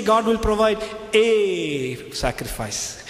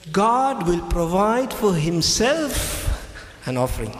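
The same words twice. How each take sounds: First: Slow, with God stressed. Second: God will provide for himself, slow and weighty, leaning on God; slow stress on God. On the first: Preacher contrasts the misquote, stressing God. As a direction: lean on God and draw it out. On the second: Preacher stresses God slowly to the congregation. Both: Shown as a demonstration. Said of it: "He didn't say".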